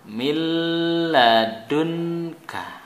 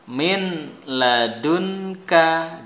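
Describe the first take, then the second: First: The n sound merges into the l. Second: The n sound is clearly pronounced.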